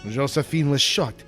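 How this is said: It is read in a put-on French accent.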